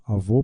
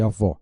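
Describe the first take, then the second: First: Avô ending in a closed ô; closed final vowel. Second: Avó ending in an open ó; open final vowel. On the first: Teacher showing the circumflex, avô with closed ô. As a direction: say avô with a tight, rounded closed o. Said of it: "som fechado". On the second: Teacher showing the acute accent, avó with open ó. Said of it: "indica a vogal com som aberto". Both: Shown as a demonstration.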